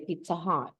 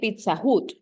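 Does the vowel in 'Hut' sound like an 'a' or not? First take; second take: like a; not like a. First: The vowel in 'Hut' sounds like an 'a'. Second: The vowel in 'Hut' does not sound like 'a'. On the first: The speaker calls it right. "Say Pizza Hut. It's like an A" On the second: The speaker calls it wrong. "You don't say Pizza Hut"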